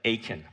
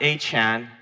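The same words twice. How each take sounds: First: It sounds like one single two-syllable name. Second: It sounds like the initial A plus Chan. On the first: It names the biblical man Achan. The speaker calls it right. "but Achan" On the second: It names a modern person called A. Chan. The speaker calls it wrong. "Not Achan"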